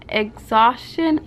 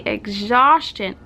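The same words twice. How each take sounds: First: Slow, drawn-out second go at "exhaustion"; "exhaustion" stretched out as "ex-zos-shun", tone rising unsurely; careful retry. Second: "exhaustion" slurred as "ex-zhosh-chun", slowly; tongue-tied slip. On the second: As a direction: stumble over "exhaustion" with a mushy "sch-tch" in the middle. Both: Real, not acted. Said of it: "I cannot speak".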